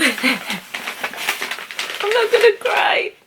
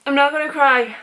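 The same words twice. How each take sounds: First: Close to tears. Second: Steadier, holding it in. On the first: Holding back tears over a longed-for book, voice breaking. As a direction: voice cracking high near tears. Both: Real, not acted.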